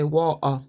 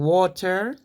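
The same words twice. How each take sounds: First: The middle t becomes a glottal stop. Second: The middle t is clearly pronounced. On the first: "they say water ... they call it the glottal stop" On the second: "instead of saying water"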